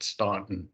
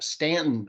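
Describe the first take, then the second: First: It is said the way outsiders say it. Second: It is said the way locals say it. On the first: The speaker is not from the area. The speaker calls it wrong. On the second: The speaker is from the area. The speaker calls it right.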